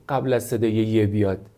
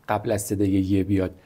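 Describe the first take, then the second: Both takes have the same delivery.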